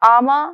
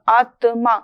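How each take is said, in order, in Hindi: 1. बीच में t ध्वनि छोड़ दी जाती है। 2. बीच में t ध्वनि स्पष्ट रूप से उच्चरित होती है। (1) "अगर हम आमा शब्द बोलते हैं तो वहां पर ता की अनदेखी हो रही है" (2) "त उच्चरित होगा, आत्मा उच्चरित होगा"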